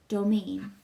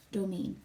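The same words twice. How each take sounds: First: A firm, slightly louder correction; correcting. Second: Agreeing. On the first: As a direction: set her straight on the word "Domain". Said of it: "I correct". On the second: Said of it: "she agrees". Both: A narrator's reading.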